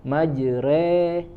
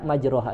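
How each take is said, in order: First: The middle vowel leans toward 'e'. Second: The middle vowel is a full open 'a'. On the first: The speaker calls it right. "lebih condong ya ke kasro" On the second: The speaker calls it wrong. "tidak dibaca majroha"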